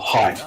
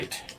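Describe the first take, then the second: First: The vowel sounds like 'eye', as in kite. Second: The vowel sounds like 'ay', as in late. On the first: The speaker calls it right. "height, not hate" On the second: The speaker calls it wrong. "not hate"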